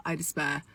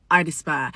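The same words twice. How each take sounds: First: Low, softer, sinking; quiet despair. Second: Said in the usual way. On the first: Real, not acted. Woman fed up with dating men, quiet despairing sigh. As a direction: let it drop away quietly.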